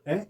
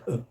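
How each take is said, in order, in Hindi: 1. स्वर 'ay' की पूरी ध्वनि है। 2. स्वर 'uh' जैसी छोटी, कमज़ोर ध्वनि है। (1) "हम गलती से इसको ए कहते हैं ... it should not be uh, spoken as a" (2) "but a; इसका सिंबल है अ अ अ"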